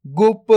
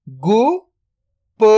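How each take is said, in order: First: Said in the usual way. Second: "गुप" split into गु, then प, very slow; drawn-out breakdown of "गुप"; sound by sound. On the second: Shown as a demonstration. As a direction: sound out गु ... प with a long gap. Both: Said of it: "तो मिलके बन जाएगा".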